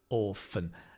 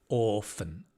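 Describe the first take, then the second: First: The second syllable has a weak, reduced vowel. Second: The same.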